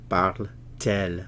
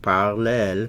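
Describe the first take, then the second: First: A t sound separates the two vowel sounds. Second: The two vowel sounds run together without a t. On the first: The speaker calls it right. "When we insert the T" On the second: The speaker calls it wrong. "instead of saying parle elle"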